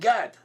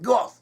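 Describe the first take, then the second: First: It has an 'a' vowel and ends in 'd'. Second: It has an 'o' vowel and ends in 'th'. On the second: This may be the ancient biblical pronunciation. "Instead of A, in Gad, you would say Go ... pronounced as th ... So you have goth"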